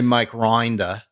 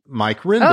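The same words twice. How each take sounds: First: The vowels are stretched out long, exaggerated Australian. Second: The vowels are of normal length, plainly said. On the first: This is how people imagine an Australian would say it. The speaker calls it wrong. "Even in Australia, they don't say" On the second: This is how the name is actually said. The speaker calls it right. "Because that's my name"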